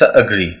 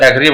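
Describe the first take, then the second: First: The first vowel sounds like uh. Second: The first vowel sounds like eh. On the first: The speaker calls it right. "But it's अग्री" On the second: The speaker calls it wrong. "हम पढ़ते इसको एग्री"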